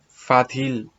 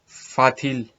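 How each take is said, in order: The two takes are said the same way.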